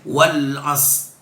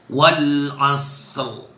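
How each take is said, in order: First: The word ends without any r sound. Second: The word ends with a heavy r sound. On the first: The speaker calls it wrong. "tidak boleh wal as" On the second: The speaker calls it right. "Ra-nya dibaca"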